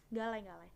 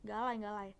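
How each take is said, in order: Both takes have the same delivery.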